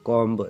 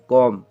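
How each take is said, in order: First: The word ends with an audible b sound. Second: The word ends on m with no b sound. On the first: The speaker calls it wrong. "कोई कोई बोलते हैं कॉम्ब" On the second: The speaker calls it right. "सिर्फ कॉम"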